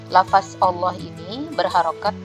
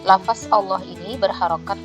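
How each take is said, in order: No difference in how they are said.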